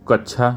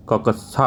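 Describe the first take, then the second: First: Said in the usual way. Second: ककस्सा said with a doubled क and स sounds; correct pronunciation. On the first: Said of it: "तो कक्षा नहीं". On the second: Shown as a demonstration. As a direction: say ककस्सा as क-क्-सा, slowly and clearly. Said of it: "ककस्सा होता है". (ककस्सा का सही उच्चारण, धीरे और साफ़)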